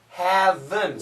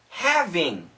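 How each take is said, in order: First: The word ends in a reduced -en sound. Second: The word ends in a full -ing sound. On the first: "But actually she says haven" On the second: "and here having"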